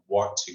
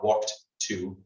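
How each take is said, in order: First: The words blend together without the d sound. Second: The words are separate with a clear d sound. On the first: The speaker calls it right. "it's kind of blended into one" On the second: The speaker calls it wrong. "It's not walked to, right? It's not two separate"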